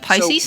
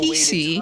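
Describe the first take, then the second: First: It is said as a single word, pie-seez. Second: It is said as two letter names, pee-see. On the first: "Haven't I been saying Pisces?" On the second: "they're official, so stand corrected"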